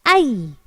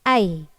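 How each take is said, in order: First: The sound is pressed firmly. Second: The sound is said lightly, without pressure. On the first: The speaker calls it right. "yang benar adalah ai, ditekan ya" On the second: The speaker calls it wrong. "Yang sering kita jumpai dari orang yang melafalkan"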